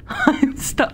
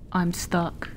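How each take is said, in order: First: Higher, louder, half-laughing; exasperated outburst. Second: Said in the usual way. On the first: Real, not acted. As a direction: blurt out "I'm stuck" in laughing frustration. Stuck in game, laughing exasperation.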